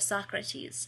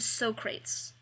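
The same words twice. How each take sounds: First: The name is said the standard way. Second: The name is said the film-comedy way. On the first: This is the version that should have been used. The speaker calls it right. "instead of Socrates" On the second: This is the version mistakenly used in the reading. The speaker calls it wrong. "I know I said Socrates instead of"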